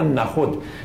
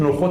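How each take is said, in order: First: The word has an older, classical pronunciation. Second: The word has its present-day pronunciation. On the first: This is how the poet apparently said it. "مولانا ظاهرا نخود تلفظ میکرده" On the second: This is how people say it today. "ما امروز نخود تلفظ میکنیم"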